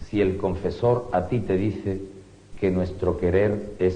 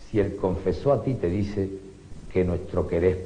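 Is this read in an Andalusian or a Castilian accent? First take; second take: Castilian; Andalusian. First: The final r sounds are pronounced clearly. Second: The final r sounds are dropped entirely. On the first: "en la lectura en castellano" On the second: "la lectura en andaluz"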